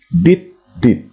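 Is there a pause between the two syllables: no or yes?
yes. The two syllables are separated by a pause. It stands for two separate letters. "seolah-olah dia terputus dan berspasi"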